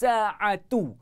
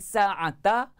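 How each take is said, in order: First: The word ends with an u vowel. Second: The word ends with an a vowel. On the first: The speaker calls it right. "dia mesti rafa'" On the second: The speaker calls it wrong. "Dia tak boleh baca dengan sa'ata"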